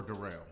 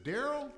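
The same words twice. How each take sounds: First: "Darrell" said duh-RELL, stress at the end; second-syllable stress. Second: "Daryl" said DARR-ul, stress up front; first-syllable stress. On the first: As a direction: lean on the last syllable of "Darrell", pitched lower. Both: Shown as a demonstration. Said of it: "I can never get it right".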